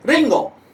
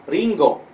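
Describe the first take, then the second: First: Punchy Osaka-accent "ringo", high start then sharp fall. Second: Kanto-accent "ringo", milder, higher pitch. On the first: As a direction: bark "ringo" Osaka style. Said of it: "lebih ngebentak sih bahasa Osaka". (logat Osaka, "ringo" agak membentak) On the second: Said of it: "di Kantonya itu adalah apel". (logat Kanto, "ringo" tanpa membentak) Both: Shown as a demonstration.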